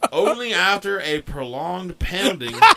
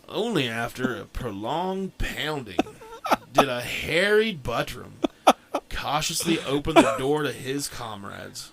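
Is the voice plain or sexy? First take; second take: plain; sexy. First: It is read in a plain voice. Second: It is read in a sexy voice.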